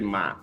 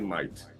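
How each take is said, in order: First: It is said with a Kentucky pronunciation. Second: It is said with a standard pronunciation. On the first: This is how people in Kentucky say it. "No, we say might" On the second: This is not how people in Kentucky say it. "We don't say might"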